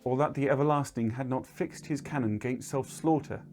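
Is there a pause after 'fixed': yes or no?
no. It runs on without a pause after fixed.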